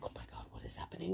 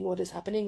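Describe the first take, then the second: First: Fast, breathless whisper of disbelief; stunned whisper. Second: Said in the usual way. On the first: Retold or imitated. Swarmed by excited fans, whispering in stunned disbelief. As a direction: whisper it as if you can't believe it.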